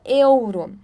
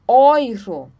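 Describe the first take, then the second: First: The first vowel is said as e-u. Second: The first vowel is said as oi. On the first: The speaker calls it wrong. "a gente não fala euro" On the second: The speaker calls it right. "nós falamos euro; E, U juntos tem o som de OI"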